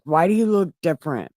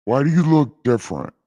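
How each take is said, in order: First: Said in the usual way. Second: Louder, fast booming question; God questioning Adam. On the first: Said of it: "God voice retake". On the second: Retold or imitated. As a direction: demand it like a suspicious God. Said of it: "God voice".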